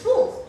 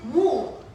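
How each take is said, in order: First: The vowel is short. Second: The vowel is long. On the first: The speaker calls it right. "It's wool, short O" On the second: The speaker calls it wrong. "They usually pronounce it wool"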